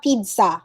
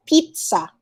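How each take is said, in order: First: "pizza" as PEED-sa; a D before the S in "pizza"; wrong pronunciation. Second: "pizza" slowly as PEET-sa; crisp TS in "pizza", peet-sa; correct pronunciation. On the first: Teacher quoting another mistake, peed-sa with a D. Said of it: "It's not pizza". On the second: Teacher correcting the student, slow peet-sa. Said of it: "It's pizza". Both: Shown as a demonstration.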